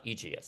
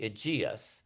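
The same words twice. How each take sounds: First: Aegeus as Max Reinhardt said it, not stressed on the second syllable; wrong pronunciation. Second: Aegeus said in three syllables, stress on the second: ee-JEE-us; correct pronunciation. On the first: Lecturer quoting a film's mistake: Aegeus said the wrong way, not ee-JEE-us. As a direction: Aegeus with the stress moved off the middle syllable, the incorrect way. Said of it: "sorry, Max Reinhardt, not Aegeus".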